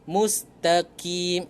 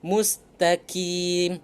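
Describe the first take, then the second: No difference in how they are said.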